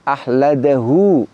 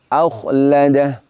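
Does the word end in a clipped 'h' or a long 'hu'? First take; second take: long hu; clipped h. First: The word ends on a long hu vowel. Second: The word ends on a clipped, voweless h. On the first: The reciter continues without stopping. "Dalam keadaan wasol hu-nya dibaca panjang" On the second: The reciter stops at this word. "dalam keadaan waqaf huruf wawunya tidak lagi ditetapkan"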